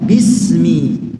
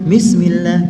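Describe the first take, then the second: First: The first sound is a firm, pressed, clear b. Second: The first sound is soft and blurred toward m. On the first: The speaker calls it right. "Harusnya bismi. Jelaskan baknya" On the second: The speaker calls it wrong. "Tercampur dengan mim"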